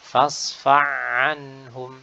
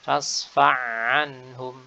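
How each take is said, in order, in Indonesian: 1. Bunyi h menyatu ke dalam ain. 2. Bunyi h menyatu ke dalam ain.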